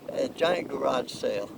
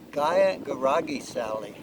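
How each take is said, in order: First: Garage and sale are said the ordinary way. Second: Garage and sale get odd extra vowel endings.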